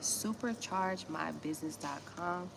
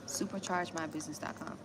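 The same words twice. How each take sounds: First: Slowly spelled-out web address; slow, clear link read. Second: Said in the usual way. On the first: Shown as a demonstration. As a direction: say the link slowly so everyone catches it.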